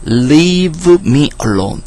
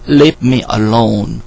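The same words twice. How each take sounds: First: "Leave me alone" higher and drawn out; emphatic enunciation. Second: Said in the usual way. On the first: Shown as a demonstration. Teacher repeats the example phrase for students, emphatically enunciated. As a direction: stretch out "Leave" with a raised pitch, each word separate.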